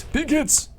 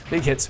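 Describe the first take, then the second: First: Very high, squeaky cheer; playful battle cry. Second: Said in the usual way. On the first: Pretend. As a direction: jump way up in pitch to cheer. Cheering on combat, repeated higher.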